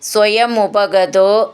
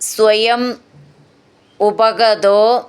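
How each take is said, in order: First: The words are joined into one sandhi form. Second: The words are said separately without sandhi joining.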